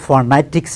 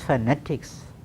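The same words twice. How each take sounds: First: The n is not made on the teeth ridge. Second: The n is made on the teeth ridge. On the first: The speaker calls it wrong. "not the phonetics as we say" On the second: The speaker calls it right. "It is phonetics"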